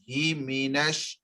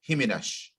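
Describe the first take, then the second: First: The syllables are said slowly and kept apart. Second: The syllables are rushed together into one. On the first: The speaker calls it right. "keep that bit slow" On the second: The speaker calls it wrong. "not himinash"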